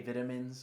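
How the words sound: It is said with a British pronunciation. The speaker calls it wrong. "they say vitamins"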